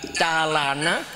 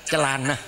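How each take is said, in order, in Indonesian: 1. Vokal pertama adalah 'ah' yang jelas. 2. Vokal pertama adalah 'uh' yang lemah. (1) "orang kampung saya mengucapkan calana" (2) "orang sini ... celana gitu"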